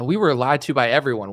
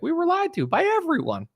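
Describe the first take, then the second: First: It sounds genuinely upset and sincere. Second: It sounds theatrical and put on. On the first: The speaker truly believes what he says. "he sounds nervous? ... I'm really mad" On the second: The speaker is only pretending to believe it. "does it sound like someone that's acting to you?"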